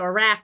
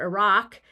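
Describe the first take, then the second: First: The second vowel is like the one in cat. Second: The second vowel is like the one in father. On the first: "coded as either a" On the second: "or ah"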